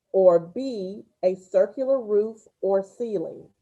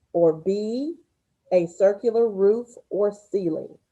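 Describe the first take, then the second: The two takes are said the same way.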